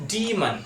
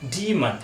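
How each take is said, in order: No difference in how they are said.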